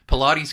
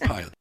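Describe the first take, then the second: First: The name is said like the exercise Pilates. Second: The name is said like the word pilot. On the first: This is how other people say the name. The speaker calls it wrong. "I've seen this all the time" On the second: This is the proper way to say the name. The speaker calls it right. "it's pilot"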